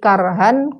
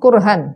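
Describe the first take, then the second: First: The first vowel is an open 'a'. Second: The first vowel is a rounded 'u'.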